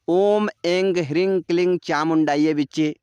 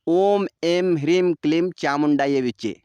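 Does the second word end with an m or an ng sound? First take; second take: ng; m. First: The second word ends in an ng sound. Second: The second word ends in an m sound. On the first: "चाहे आप गकार में उच्चारण करिए" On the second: "चाहे आप मकार में उच्चारण करिए"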